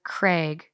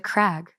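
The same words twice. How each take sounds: First: Craig said as "Crayg", long a; long-a pronunciation. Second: Crag with a short a, as in bag; short-a pronunciation. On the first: Reader explaining the rhyme, Craig with a long ay. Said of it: "rhymes with Craig". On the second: Reader doubting the rhyme, Crag with a short a. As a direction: offer Crag as the alternative, rhyming with bag. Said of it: "Or is it Crag?". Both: Shown as a demonstration.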